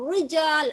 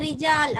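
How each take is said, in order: First: The r sound is heavy and thick. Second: The r sound is light and thin. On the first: The speaker calls it wrong. "அப்படி ஓதுறது இல்ல" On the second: The speaker calls it right. "மெல்லினமாக ஓதணும்"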